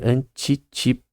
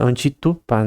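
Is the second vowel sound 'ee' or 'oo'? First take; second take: ee; oo. First: The second vowel sounds like 'ee'. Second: The second vowel sounds like 'oo'. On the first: "na versão de I" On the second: "Você falar que o Y tem som de U"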